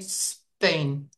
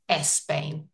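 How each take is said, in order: First: The word starts directly with the s sound. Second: The word starts with an added e vowel. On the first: The speaker calls it right. "So just say Spain" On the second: The speaker calls it wrong. "rather than Espain"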